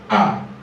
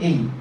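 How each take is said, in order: First: The letter name sounds like 'eye'. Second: The letter name sounds like 'ay'. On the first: This is how examiners may spell the letter. "you may hear I" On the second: This is the familiar local way of naming the letter. "It's called A"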